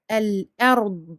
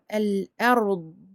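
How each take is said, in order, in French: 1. La consonne finale est maintenue avec un son prolongé. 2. La consonne finale est maintenue avec un son prolongé.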